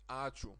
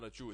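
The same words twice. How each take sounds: First: The stress is on the first syllable. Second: The stress is on the second syllable. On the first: The speaker calls it right. "It's ačiū. The stress is on the a" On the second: The speaker calls it wrong. "some people say from foreign countries say ačiū. No, it's not ačiū"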